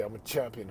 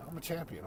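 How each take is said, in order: First: Reluctant. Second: Said in the usual way. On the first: Retold or imitated. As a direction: mumble "I'm a champion" like you don't want to say it. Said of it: "He didn't want to say it". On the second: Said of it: "Who am I?".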